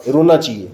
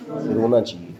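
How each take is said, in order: First: Said in the usual way. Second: A touch of mock sorrow on रोना चाहिए, softer; mock-pitiful teacher; mock sad. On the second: Shown as a demonstration. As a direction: sigh out रोना चाहिए as if about to cry, half-joking.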